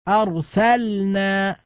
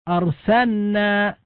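First: The L is pronounced clearly before the N. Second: The L is merged into a doubled N. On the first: The speaker calls it right. "كذلك أرسلنا" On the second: The speaker calls it wrong. "يقرأها أرسلنا"

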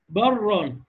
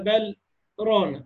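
First: The l merges into a doubled r without pause. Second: A brief pause separates bal from rana. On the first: "وما فيش سكت ... وشدد الراء" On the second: "بالسكت"

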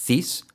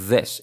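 First: The th sound is voiceless, without buzzing. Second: The th sound is voiced, with buzzing. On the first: The speaker calls it wrong. "No this" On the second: The speaker calls it right. "Sonido Z, pero activando las cuerdas"

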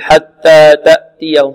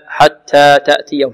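First: The t sounds have no breathy release. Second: The t sounds have a light breathy release. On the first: The speaker calls it wrong. "بعض الطلاب يقول حتى تأتيهم خطأ" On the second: The speaker calls it right. "لابد من همس التاء همسا كما جاء عن القراء هكذا"

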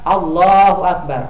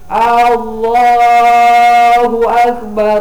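First: The opening of Allahu is clear and short. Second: The opening vowel of Allahu is drawn out long. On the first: The speaker calls it right. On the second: The speaker calls it wrong. "dengan memanjangkan hamzah"

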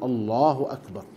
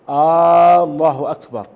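First: No sound in the first word is drawn out. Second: The opening vowel of the first word is drawn out. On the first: It states that God is greatest. The speaker calls it right. "السنة ألا يمد وإنما يقول الله أكبر" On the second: It asks whether God is greatest. The speaker calls it wrong. "إن مد همزة الله بأن قال الله أكبر"

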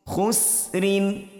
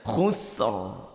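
First: The word ends with the full -in ending. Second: The word ends on the final r consonant. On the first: The reading continues without stopping. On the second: The reading stops at this word.

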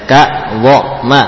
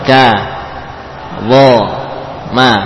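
First: The first syllable is cut off by a glottal stop. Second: The first syllable flows smoothly into the next. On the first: The speaker calls it wrong. "Ini contoh yang keliru dari saya" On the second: The speaker calls it right. "Ka lepas saja"

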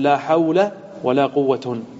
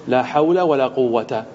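First: The last word ends with u plus n. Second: The last word ends with a short a vowel. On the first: "والرفع" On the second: "الفتح"

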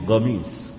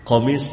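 First: The word begins with a G sound. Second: The word begins with a deep throat Q sound. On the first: "mengucapkan huruf qaf diganti dengan gain" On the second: "Berasal dari huruf qaf"

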